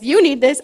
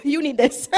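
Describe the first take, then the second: First: "You" punched louder; louder, emphatic "You need this"; stress on YOU. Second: Said in the usual way. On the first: Real, not acted. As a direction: hit "You" hard, pointing at the congregation. Repeats it to the congregation.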